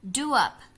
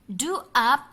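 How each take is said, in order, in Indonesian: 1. Bunyi w menghubungkan kedua kata itu. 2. Kedua kata disambung tanpa bunyi w tambahan.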